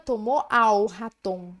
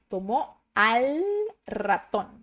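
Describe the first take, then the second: First: The l in 'al' sounds like a u. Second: The l in 'al' is a clear l. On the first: The speaker calls it wrong. "não diga" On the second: The speaker calls it right. "a letra L, ela é bem marcada"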